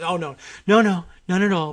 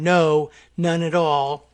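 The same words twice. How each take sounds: First: Imitated hasty, insincere denial; unconvincing denial. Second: Said in the usual way. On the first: Host mimics Trump denying sarcasm to reporter, unconvincingly. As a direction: deny it without convincing anyone. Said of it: "in a very unconvincing way". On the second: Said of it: "words in a transcript will be written down".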